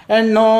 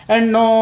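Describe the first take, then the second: The two takes are said the same way.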